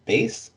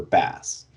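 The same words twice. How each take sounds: First: "Bass" rhymed with "face"; long-a pronunciation. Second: "Bass" rhymed with "mass"; short-a pronunciation. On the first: Podcaster unsure of a teacher's name, long-A "Bass". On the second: Podcaster offering the other name, short-A "Bass". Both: Shown as a demonstration. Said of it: "It's unclear if it's Bass or Bass".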